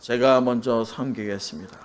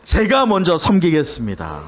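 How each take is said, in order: First: It is said stiffly, without a smile. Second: It is said warmly, with a smile.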